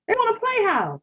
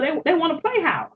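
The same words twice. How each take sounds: First: Pitched high, teasing sing-song; sing-song taunt pitched high; mocking. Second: Said in the usual way. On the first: Real, not acted. Mocking the partner's wish.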